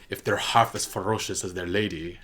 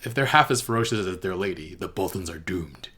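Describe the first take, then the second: First: Put-on halting try at Davos's accent, not quite there; attempted Davos accent. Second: Put-on second try at Davos accent. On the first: Quoting Davos's pledge to Lyanna in his accent, a first shaky try. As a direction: reach for Davos's accent and miss. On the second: Quoting Davos to Lyanna again, retrying his accent. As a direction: take another run at Davos's accent, landing the end. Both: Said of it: "I can't do his accent".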